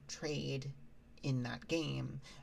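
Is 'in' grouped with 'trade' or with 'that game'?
that game. The word 'in' groups with 'that game'. The trading happens inside the game. The speaker calls it right. "instead of saying trade in that game"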